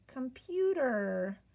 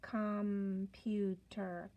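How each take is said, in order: First: Said in the usual way. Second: "computer" stretched out slowly, syllable by syllable; slow blending. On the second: Shown as a demonstration.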